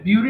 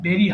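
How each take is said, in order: First: The first vowel sounds like 'yoo'. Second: The first vowel sounds like 'eh'. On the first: The speaker calls it wrong. "অনেকে ভুল করে বিউরি বলে, বিউরি না কিন্তু" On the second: The speaker calls it right. "হ্যাঁ বেরি হবে।"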